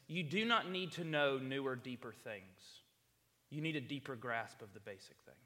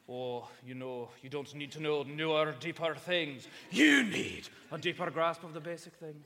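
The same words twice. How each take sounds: First: Said in the usual way. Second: Imitating a pastor's Scottish accent, building louder. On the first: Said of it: "sounds so much better than what I just said". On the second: Preacher quoting his former pastor to the congregation, Scottish accent. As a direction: put on a big Scottish accent, punching "You need". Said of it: "in his wicked, cool Scottish accent".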